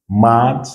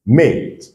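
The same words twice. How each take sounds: First: "mad" with an open ah vowel; short A. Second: "made" with the English ay vowel; long A. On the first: Teacher drills the short sound, open a in "mad". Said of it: "c'est le son qui est court". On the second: Teacher drills the long sound, ay in "made". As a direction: say "made" like the letter name A, pitched up. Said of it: "c'est son son qui est long". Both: Shown as a demonstration.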